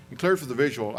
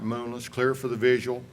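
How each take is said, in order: First: "clear" lifted and pressed a little louder; stress on clear. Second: Said in the usual way. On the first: Shown as a demonstration. Instructor flagging "clear for the visual" to his class, with a slight push on "clear". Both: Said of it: "I threw in there for the reason".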